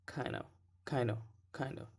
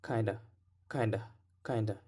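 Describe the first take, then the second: First: "kind of" said as "kina", no D; dropped D. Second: "kinda" with a clear D before the schwa; D pronounced. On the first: Teacher shows the less common reduction, "kind of" without its D. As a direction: reduce "kind of" to KAI-nuh, skipping the D. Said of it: "less common to drop the D". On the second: Teacher shows the more common form, "kinda" with its D sounded. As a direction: keep the D in "kinda". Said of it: "more common to hear a D". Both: Shown as a demonstration.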